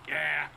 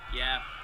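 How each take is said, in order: First: It is said in a gravelly voice. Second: It is said in a normal voice.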